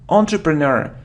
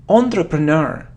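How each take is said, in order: Both takes have the same delivery.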